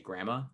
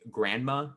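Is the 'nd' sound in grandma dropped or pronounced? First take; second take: dropped; pronounced. First: The word is said as 'gramma' without 'nd'. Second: The word is said with the full 'grand' sound. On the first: This is the speaker's own way of saying it. "G R A M M A, grandma" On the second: This is how other people say it. "I don't say grandma"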